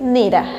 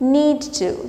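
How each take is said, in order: First: The words are blended into one reduced form. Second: Both words are said fully and separately.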